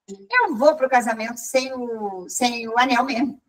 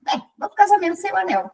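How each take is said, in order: First: Hesitant decision. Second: Quick, higher-pitched confirmation; brisk decision. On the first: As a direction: think it through as you say it. Slow take of the decision. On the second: Woman confirming her wedding decision, briskly. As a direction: say it fast, matter settled. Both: Retold or imitated.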